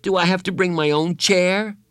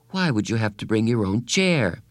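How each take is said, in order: First: Put-on higher, anxious boy's question; whining boy. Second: Said in the usual way. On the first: A narrator's reading. Bradley anxiously asking Carla about the party. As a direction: fret like a child before a party. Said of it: "Bradley whined".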